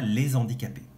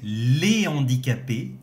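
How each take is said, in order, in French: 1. Un son z fait la liaison entre les deux mots. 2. Aucun son z ne fait la liaison entre les deux mots. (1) "et non pas" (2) "et les handicapés"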